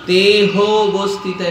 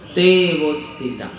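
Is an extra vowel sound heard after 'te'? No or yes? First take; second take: yes; no. First: An extra vowel is sounded between the two words. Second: The two words run together with no extra vowel. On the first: The speaker calls it wrong. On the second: The speaker calls it right.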